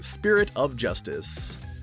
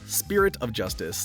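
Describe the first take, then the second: First: The consonants are crisply enunciated. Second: The consonants are slurred and unclear. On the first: The speaker calls it right. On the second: The speaker calls it wrong.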